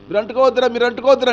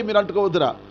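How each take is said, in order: First: Much higher, louder repeated అంటుకోవద్దురా; father begging children not to touch; frantic shout. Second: Said in the usual way. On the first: Acted. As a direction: yell మీరు అంటుకోవద్దురా in panic. King pleads harder.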